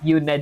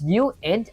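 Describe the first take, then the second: First: It is said like the word unit. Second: It is said as you-int, two parts. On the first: The speaker calls it wrong. "and not unit" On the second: The speaker calls it right. "It's uint"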